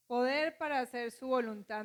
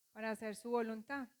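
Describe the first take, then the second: First: Poder said louder as the key word; stress on Poder. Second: Said in the usual way. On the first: Shown as a demonstration. Preacher driving home the answer, stress on Poder. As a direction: hit the word Poder firmly.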